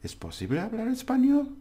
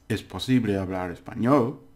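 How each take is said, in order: First: The voice rises at the end. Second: The voice falls at the end. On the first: It is asked as a question. "Your voice goes up. It, it means it's a question" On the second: It is stated as a fact. "It's just a statement"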